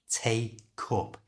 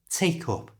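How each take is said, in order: First: The phrase is said slowly and carefully. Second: The phrase is said quickly like one word.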